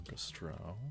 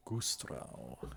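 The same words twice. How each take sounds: First: Said in the usual way. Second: Gustrau said lower as Kustrau with a hard K and falling tune; German-style name. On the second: Shown as a demonstration. Player trying the local accent on the town name Gustrau, said lower with a K. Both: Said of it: "I think that's how that accent goes".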